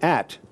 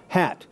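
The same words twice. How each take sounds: First: "at" starting straight on the vowel; "at" with no air before the vowel; no h sound. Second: "hat" with air let out on the h; spirantized h. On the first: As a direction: drop the breath, just "at". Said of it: "Otherwise, it'd be at". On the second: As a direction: breathe out the h that starts "hat". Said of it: "let h-, air out". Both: Shown as a demonstration.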